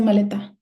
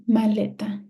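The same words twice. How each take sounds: First: "maleta" wrongly stressed on the final syllable, TA. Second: "Maleta" stressed on its middle syllable, LE. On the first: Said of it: "Or ta". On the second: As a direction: settle firmly on LE in "Maleta". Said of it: "It's le". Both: Shown as a demonstration.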